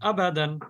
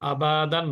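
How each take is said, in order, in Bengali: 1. ছোট স্বরধ্বনি দ্রুত, দেরি না করে বলতে হয়। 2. ছোট স্বরধ্বনিকে অনেক বেশি টেনে পড়া হচ্ছে। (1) "জবরদের পেশ যে অক্ষরের উপরে থাকবে সেই অক্ষরটা দ্রুততার সাথে উচ্চারণ করতে হবে" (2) "আবাদান না"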